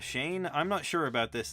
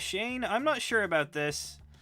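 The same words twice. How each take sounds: First: The voice is at its natural lower pitch. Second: The voice is pitched up higher. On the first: The speaker's own present voice. "my voice is obviously lower than it used to be" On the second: It is a younger character speaking. "I kind of pitch it up to, uh, you know, s- sound like old me"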